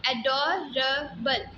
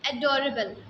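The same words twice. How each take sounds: First: एडोरेबल said slowly, syllables drawn out; second take of एडोरेबल, slow and clear; slow careful repeat. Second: Said in the usual way. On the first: Shown as a demonstration. Teacher models the word for students, slow repeat. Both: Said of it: "इसको pronounce करें".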